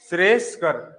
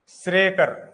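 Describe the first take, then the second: First: It is said with an 's' before 'kar'. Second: It is said without an 's' before 'kar'. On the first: The speaker calls it right. "इसको लिखेंगे श्रेयस्कर" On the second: The speaker calls it wrong. "श्रेयकर कोई शब्द नहीं होता"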